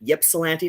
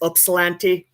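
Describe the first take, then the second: First: The first vowel sounds like the letter Y. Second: The first vowel sounds like the letter U. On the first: "not like a Y" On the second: "like the Greek is Upsilanti"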